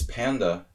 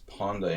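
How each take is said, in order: First: It is said with the American English vowel. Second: It is said with the Hungarian 'o'-like vowel. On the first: "in English" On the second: "in Hungarian"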